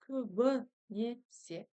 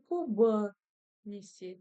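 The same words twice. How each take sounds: First: The first vowel sounds between i and o. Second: The first vowel sounds like o. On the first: The speaker calls it right. "а именно промежуточный вариант мягкости" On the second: The speaker calls it wrong. "Не көбінесе через букву О"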